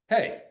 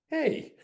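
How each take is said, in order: First: It is said aggressively and forcefully. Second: It is said softly and vulnerably.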